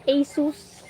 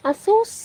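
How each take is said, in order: First: Said in the usual way. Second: Playful high Asus. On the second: Shown as a demonstration. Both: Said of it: "Asus repeated in different ways".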